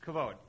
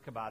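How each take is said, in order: First: The middle consonant is a v sound. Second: The middle consonant is a b sound. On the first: The speaker calls it right. "It's kavod" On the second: The speaker calls it wrong. "Some people try to pronounce it kabod. That's not correct"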